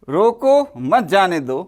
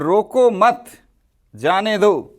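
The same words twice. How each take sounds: First: The pause comes after the first word. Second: The pause comes after the second word.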